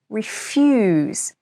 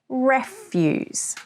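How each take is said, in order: First: The stress is on the second syllable. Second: The stress is on the first syllable. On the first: It means to say no to something. "if you put the stress on the second syllable with a long E sound" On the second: It means rubbish or waste. "The stress is on the first syllable with a short E sound"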